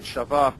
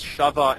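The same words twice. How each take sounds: First: Shava stressed on the last syllable; accent milra. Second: Shava stressed on the first syllable; accent mila'el. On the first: Teacher giving more examples, shava stressed on va. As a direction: hit the VA in shava. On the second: Teacher giving more examples, shava stressed on sha. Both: Shown as a demonstration. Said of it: "a lot of examples of this".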